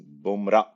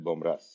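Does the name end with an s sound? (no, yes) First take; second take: no; yes. First: The name ends without an s sound. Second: The name ends with an s sound. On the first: This is how the owner's name is said. "The way to pronounce it is Bomra" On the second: This is how most people say it, following the spelling. "so everyone calls it Bomras"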